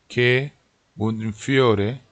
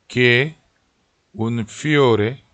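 Both takes have the same delivery.

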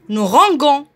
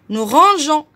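First: The g is hard, like the g in go. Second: The g is soft, like the s in measure. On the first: The speaker calls it wrong. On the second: The speaker calls it right.

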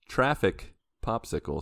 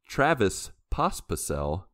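First: The name is mangled into everyday words. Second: The name is pronounced as it is written. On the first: The speaker calls it wrong. "Let me say it wrong like I usually do" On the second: The speaker calls it right. "Did you just say his name right? Yeah"

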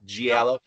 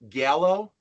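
First: The word begins with a j sound. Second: The word begins with a hard g sound. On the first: The speaker calls it right. "it's actually the hard G of J" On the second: The speaker calls it wrong. "I always pronounced it Gallo"

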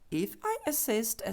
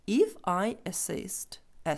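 First: The phrase is spoken quickly. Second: The phrase is spoken slowly. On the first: "тепер швидше" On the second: "читаємо ще раз цю скоромовку повільно"

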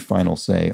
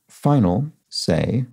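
First: The words run together without a pause. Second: There is a pause between the words. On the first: It is the ordinary phrase meaning the last word. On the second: It means a final, for example, a course exam.

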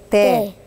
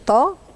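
First: The consonant is a light, plain t. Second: The consonant is a heavy, emphatic t. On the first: The speaker calls it right. "لكن دي تاء تاء. شوف حتى هي بسيطة ورقيقة" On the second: The speaker calls it wrong. "بتقول طا كده، قلب الطاء"

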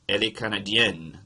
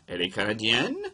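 First: The voice falls at the end. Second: The voice rises at the end. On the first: It states a fact. "That's a sentence" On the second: It asks a question. "change a period to a question mark, and you get an interrogative sentence"

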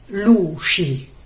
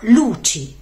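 First: The middle consonant is a soft 'sh' sound. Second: The middle consonant is a crisp 'ch' sound. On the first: This is a regional pronunciation. The speaker calls it wrong. "come spesso pronunciano molti romani con la C scivolata" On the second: This is the standard pronunciation. The speaker calls it right. "ma luci"

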